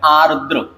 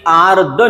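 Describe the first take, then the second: First: आर्द्र said as "aar-dra"; final र sounded. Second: आर्द्र said as "aard"; final र dropped. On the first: Teacher giving the right form, आर्द्र ending in "dra". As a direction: sound both r's in आर्द्र. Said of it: "उसका सही रूप है". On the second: Teacher showing the wrong form, आर्द्र without final r. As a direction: drop the last r of आर्द्र. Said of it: "ऐसे ही आर्द्र नहीं होता". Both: Shown as a demonstration.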